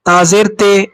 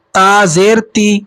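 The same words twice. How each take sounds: First: تے ending in an "ay" sound; majhul vowel. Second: Slow recital, تی as a clear "tee"; teacher spelling out تا زیر تی slowly with "ee"; ma'ruf vowel. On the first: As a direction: show the faulty reading, "tay" for تے. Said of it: "یہ طریقہ غلط ہوتا ہے". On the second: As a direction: stretch it out, ending تی on pure "ee". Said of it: "یعنی اس طریقے سے پڑھا جائے". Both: Shown as a demonstration.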